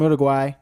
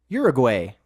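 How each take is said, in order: First: The word is said without a Canadian pronunciation. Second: The word is said with a Canadian pronunciation.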